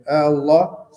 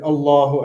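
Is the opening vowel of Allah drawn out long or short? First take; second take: long; short. First: The opening vowel is stretched out long. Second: The opening vowel is kept short. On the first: It asks whether God is the greatest. The speaker calls it wrong. "mad of the the hamza ... هذا استفهام" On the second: It states that God is the greatest. The speaker calls it right. "So we say Allahu Akbar"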